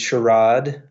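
It is said with a British pronunciation.

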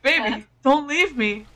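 It is said in a pleading, desperate tone. The speaker calls it right. "Be like"

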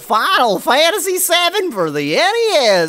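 It is said in an exaggerated, silly voice.

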